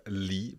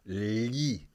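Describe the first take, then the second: First: Said in the usual way. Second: "li" drawn out as Italian gli, tongue squeezed on the palate; palatal gli. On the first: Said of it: "So we have li, but li". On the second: Shown as a demonstration. Co-host contrasts two sounds, "li" as palatal gli. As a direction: lengthen and squeeze the l in "li". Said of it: "a stronger effort, as compared to li".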